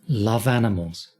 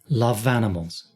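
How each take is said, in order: No difference in how they are said.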